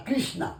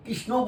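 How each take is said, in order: First: "Krishna" with a long final "aa"; mimicked foreign "Krish-naa" for Krishno; mispronounced Krishna. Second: Said in the usual way. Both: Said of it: "তারা কৃষ্ণ বলতে পারে না".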